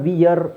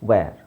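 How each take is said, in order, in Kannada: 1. ಸ್ವರ 'ee' ಥರ ಉಚ್ಚಾರ ಆಗುತ್ತೆ, ಆಮೇಲೆ 'ur' ಥರ. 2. ಸ್ವರ 'air' ಪದದ ಥರ ಉಚ್ಚಾರ ಆಗುತ್ತೆ. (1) "ಇದನ್ನು ವಿಯರ್ ಅಂತ ಹೇಳೋದಲ್ಲ" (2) "ವಿಯರ್ ಅಲ್ಲ, ವೇರ್"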